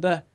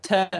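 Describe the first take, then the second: First: Said in the usual way. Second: "ter" as a short northern word; northern pronunciation. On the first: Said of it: "instead of". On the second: Shown as a demonstration. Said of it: "people up north say".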